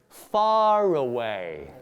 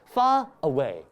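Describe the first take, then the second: First: An R sound links the two words. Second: A glottal stop separates the two words. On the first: The speaker calls it right. "we insert an R sound" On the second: The speaker calls it wrong. "There is a glottal stop here"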